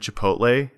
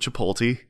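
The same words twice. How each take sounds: First: The L sound comes after the T. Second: The L sound comes before the T.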